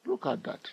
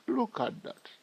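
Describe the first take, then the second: First: Said in the usual way. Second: Excited. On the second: Real, not acted. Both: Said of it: "Are you excited like myself?".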